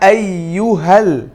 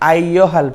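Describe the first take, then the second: First: The u vowel is clearly rounded. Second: The u vowel is flattened and unrounded. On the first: The speaker calls it right. "পেশটা মারুফ হবে, অর্থাৎ গোল হবে" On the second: The speaker calls it wrong. "এমালা করে পড়ি নাকি আইয়হাল পড়ি, কিন্তু এটাও ভুল"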